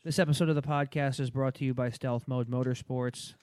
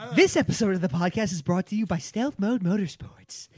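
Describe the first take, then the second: First: It is read in a flat monotone. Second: It is read with interested, lively expression.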